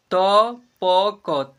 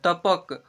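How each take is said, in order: First: "तपक" slowly as त, प, क, with gaps; letter by letter. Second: Said in the usual way. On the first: Shown as a demonstration. Teacher sounding out "तपक" for learners, letter by letter. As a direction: pull "तपक" apart into three long syllables. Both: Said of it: "ऐसे पढ़ेंगे".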